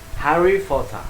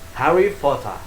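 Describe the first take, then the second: First: It is said in a British accent. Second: The same.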